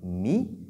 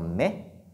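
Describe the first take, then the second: First: The vowel is a close 'ee' sound. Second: The vowel is an open 'eh' sound. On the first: The speaker calls it right. "on doit dire mi" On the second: The speaker calls it wrong. "et non mais"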